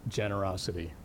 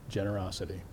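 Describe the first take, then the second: Both takes have the same delivery.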